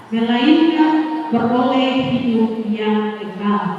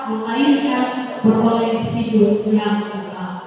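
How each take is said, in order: The two takes are said the same way.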